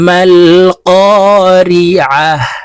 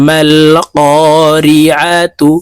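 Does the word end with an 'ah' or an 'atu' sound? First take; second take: ah; atu. First: The word ends with a stopped 'ah' sound. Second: The word ends with a full 'atu' sound.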